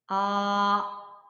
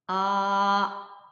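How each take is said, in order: No difference in how they are said.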